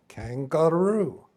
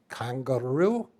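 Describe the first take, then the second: First: Kangaroo slow and louder, falling with certainty; captain's pleased naming. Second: Kangaroo drawn out slowly with a questioning rise. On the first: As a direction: declare kangaroo slowly, firm falling tune. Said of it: "And he goes". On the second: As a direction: say Kangaroo slow, rising at the end like a puzzled reply. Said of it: "And they said". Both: Retold or imitated.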